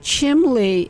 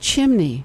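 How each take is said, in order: First: The middle consonant is an L sound. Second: The middle consonant is an N sound. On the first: It marks a regional New England way of speaking. "chimley is a New England colloquialism" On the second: It is the usual form found elsewhere. "Instead of chimney"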